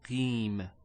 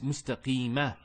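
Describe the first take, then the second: First: The word ends on a consonant, no final vowel. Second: The word ends with a short final a vowel. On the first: The reader stops at the end of the verse. "we pronounce it as if there was a sukoon" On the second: The reader continues without stopping. "There's a fatha there"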